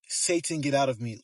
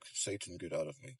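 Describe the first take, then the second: First: It is yelled very loudly. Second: It is murmured quietly.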